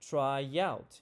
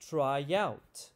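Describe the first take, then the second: First: A y sound links the two words together. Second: A y sound links the two words together.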